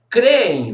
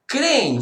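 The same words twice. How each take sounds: First: "Creem" with a doubled e, cre-em, louder; corrected reading. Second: "Crem" said as one syllable, the vowel clipped to a single e; mistaken reading. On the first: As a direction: stretch "Creem" into two e sounds, kɾe-e, stress on the first. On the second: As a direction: read "Crem" quickly as kẽ, one short syllable. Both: Shown as a demonstration. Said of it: "perdão, eu, desculpa".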